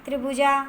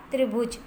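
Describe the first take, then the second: First: त्रिभुजा with an added final "aa"; त्रिभुजा misspoken as "tribhujaa"; incorrect form. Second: त्रिभुज ending on the consonant j; त्रिभुज with no final vowel; correct form. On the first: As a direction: end त्रिभुजा on a long vowel. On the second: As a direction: stop त्रिभुज at the j. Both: Shown as a demonstration. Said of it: "तो इसका शुद्ध रूप होगा".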